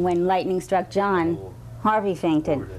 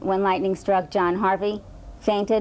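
First: The pause comes after the name John. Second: The pause comes before the name John. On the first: Lightning hit John, and Harvey fainted. "or do we mean" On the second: A man named John Harvey fainted when lightning struck. "do we mean"

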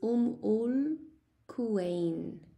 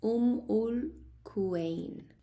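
The two takes are said the same way.

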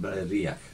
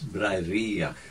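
First: The middle vowel is short and not drawn out. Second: The middle vowel is held long and emphasized. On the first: The speaker calls it wrong. "instead of Bray-Riach" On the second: The speaker calls it right. "you give emphasis to the vowel"

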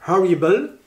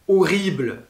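First: The word starts with an audible h sound. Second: The word starts without an h sound. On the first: "en anglais, eh bien, ce n'est pas un H muet" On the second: "le H du mot horrible"

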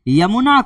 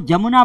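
First: The word begins with a 'y' sound. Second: The word begins with a 'j' sound. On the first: This is the standard form of the name. "जबकि ये क्या है, यमुना" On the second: This is a regional dialect form of the name. "यमुना नदी को ये लोग बोलते हैं जमुना"

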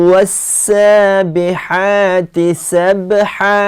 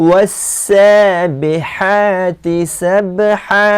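Both takes have the same delivery.

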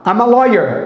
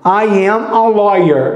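First: The words run together into one smooth chunk. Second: Each word is said separately and slowly. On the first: "se você junta, ama, ama, ama" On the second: "Isso é uma maneira, assim, digamos assim, que lenta de falar"

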